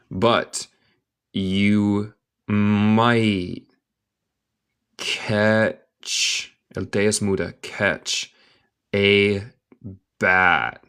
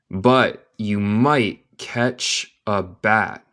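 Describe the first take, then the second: First: Very slow, long pauses between words; word-by-word dictation. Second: Slow, measured full sentence; slow connected reading. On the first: Teacher breaking down a sentence for learners, word by word. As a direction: spell it out one word at a time. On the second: Teacher repeating the sentence for learners, slow and connected. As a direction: join the words, keeping them slow. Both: Shown as a demonstration.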